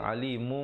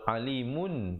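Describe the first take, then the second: First: The word ends with a light m sound. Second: The word ends with an n sound. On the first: This is the form used before a following b. "tapi bila datang ba jadi alimum" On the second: This is the original form before assimilation. "Asalnya alimun"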